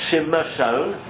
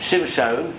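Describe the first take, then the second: First: A short vowel is heard between the m and sh. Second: No vowel is heard between the m and sh. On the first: The speaker calls it wrong. "and it's not Shimshon" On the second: The speaker calls it right. "so it's Shimshon"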